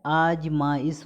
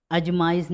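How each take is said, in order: First: आजमाइश slowly, opening on "aaj"; long first vowel. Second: अजमाइश opening on short "aj"; wrong short vowel. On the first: Teacher correcting students, long-aa आजमाइश. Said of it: "आजमाइश होता है". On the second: Teacher showing students the error, short-a अजमाइश. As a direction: say अजमाइश with a brief first a. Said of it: "नहीं होता है". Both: Shown as a demonstration.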